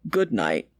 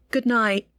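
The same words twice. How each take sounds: First: Much lower, deeper-voiced father; a low fatherly goodnight; father's voice. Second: Said in the usual way. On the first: A narrator's reading. Father answers daughter goodnight.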